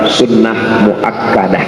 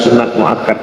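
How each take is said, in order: First: The words are full, ending in muakkadah. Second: The words are cut short, ending in muakkad. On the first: This is the Arabic form of the term. The speaker calls it right. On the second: This is the Indonesian form of the term. The speaker calls it wrong. "kata sunat muakkad ini keliru"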